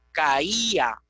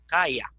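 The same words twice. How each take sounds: First: CAÍA as ca-Í-a, stress on the í; CAÍA in hiatus, í sounded as its own syllable; three syllables. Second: CALLA as CAI-a, stress on the first a; first-pair diphthong. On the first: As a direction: say CAÍA with the vowels apart, ca-í-a. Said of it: "emitimos tres emisiones de voz". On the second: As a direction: say CALLA in two syllables, CAI-a. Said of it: "sería diptongo la primera". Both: Shown as a demonstration.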